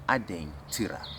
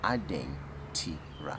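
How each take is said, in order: First: The word is said at normal speed. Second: The word is said very slowly. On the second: "Very slow"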